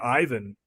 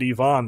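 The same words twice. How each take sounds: First: The name is said the English way. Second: The name is said the Russian way.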